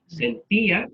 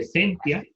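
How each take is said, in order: First: Sentía with a higher, stressed í apart from the a. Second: Sentia stressed on SEN, "tia" as one unstressed syllable; wrong stress. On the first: Teacher showing students the accent, Sentía stressed on the í. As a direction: lift the í in Sentía: sen-TÍ-a. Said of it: "acento en la I". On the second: Teacher showing students the wrong form, sentia with stress moved to SEN. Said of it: "en lugar de sentia". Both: Shown as a demonstration.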